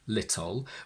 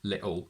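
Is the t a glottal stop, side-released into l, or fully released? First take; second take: fully released; glottal stop. First: A strong t is followed by a short vowel. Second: The t is replaced by a glottal stop. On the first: "the schwa, ... with a strong t" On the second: "they use a glottal stop"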